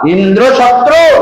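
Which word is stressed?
शत्रु. The stress is on शत्रु.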